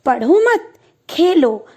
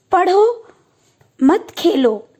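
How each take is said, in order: First: पढ़ो मत as one group, pause, then खेलो; pause after मत. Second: Rising पढ़ो, long pause, then मत खेलो; pause after पढ़ो. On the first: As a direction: run पढ़ो into मत, stop, then give Khelo alone. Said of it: "दूसरे वाक्य में". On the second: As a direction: lift पढ़ो and stop, then say मत खेलो as one group. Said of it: "पहले वाक्य में". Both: Shown as a demonstration.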